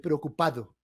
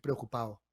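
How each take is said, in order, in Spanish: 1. La d es una consonante fuerte y completa. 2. La d se omite por completo. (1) "Nadie dice la D del participio de la misma manera" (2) "con el paso de las generaciones vamos a decir preocupado"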